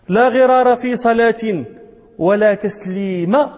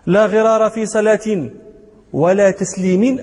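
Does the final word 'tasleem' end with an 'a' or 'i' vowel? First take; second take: a; i. First: The last word ends with an 'a' vowel. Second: The last word ends with an 'i' vowel. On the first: One should not greet anyone during prayer. "أي لا غرار في صلاة ولا تسليم في صلاة" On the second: There should be no shortfall in returning a greeting. "أي لا غرار في صلاة ولا غرار في تسليم"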